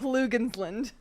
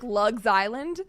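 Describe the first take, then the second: First: It sounds like one word, Lugensland. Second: It sounds like two words, Lugs Island. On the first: The speaker calls it right. "but it's Lugensland" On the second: The speaker calls it wrong. "It looks like Lugs Island"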